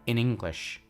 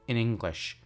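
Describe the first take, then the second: First: The word in is said short and reduced. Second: The word in is said short and reduced.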